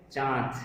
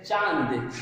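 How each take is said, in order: First: चांद with a nasalised आ, no separate n; nasalised vowel. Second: चांद as "chaand", with a full n; full n sound. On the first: Teacher showing students the correct चांद, nasalised vowel without full n. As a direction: say चांद through mouth and nose together. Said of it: "इसका उच्चारण मुंह और नाक की सहायता से". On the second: Teacher copying the common mistake, चांद with a full n. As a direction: sound out a separate n before the d in चांद. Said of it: "हम लोग बोल देते हैं". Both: Shown as a demonstration.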